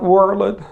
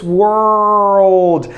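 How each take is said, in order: First: World said in two syllables, wor-led; wrong pronunciation. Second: World said as one tight syllable, wurld, stressed; correct pronunciation. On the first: Teacher showing students the mistake. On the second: Teacher correcting the class, one syllable. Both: Shown as a demonstration. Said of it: "It's not world".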